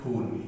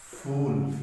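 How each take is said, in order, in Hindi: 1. शब्द की शुरुआत एक महाप्राण 'ph' ध्वनि से होती है। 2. शब्द की शुरुआत 'f' ध्वनि से होती है। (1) "फ को जब उच्चारण कर" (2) "जब मैं ये ये ये नुक्ता यूज कर लूं"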